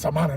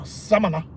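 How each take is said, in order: First: The stress falls on the speaker's original syllable. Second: The stress is shifted onto a different A. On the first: The speaker calls it wrong. "I'm saying Samana. They like, no, no" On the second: The speaker calls it right. "you gotta put the stress on the A, a different Samana"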